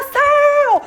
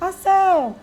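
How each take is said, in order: First: It is shouted loudly. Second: It is said quietly and timidly.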